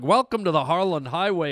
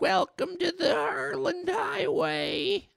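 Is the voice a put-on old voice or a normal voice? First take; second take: normal; put-on old. First: It is said in his normal voice. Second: It is said in a put-on old voice.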